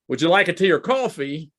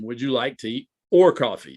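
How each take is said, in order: First: It sounds like a yes-or-no question. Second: It sounds like an either-or choice question.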